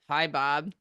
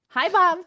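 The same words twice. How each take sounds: First: The greeting sounds flat and annoyed. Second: The greeting sounds warm and smiling. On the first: The caller is unwelcome. The speaker calls it wrong. "it's probably not going to come out the same way as like" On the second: The caller is welcome. The speaker calls it right. "if you are smiling"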